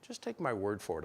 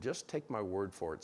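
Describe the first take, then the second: First: Said in the usual way. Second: Dry sarcastic delivery. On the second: Shown as a demonstration. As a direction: say it with Rhode Island sarcasm. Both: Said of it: "Sarcasm is an art form back there".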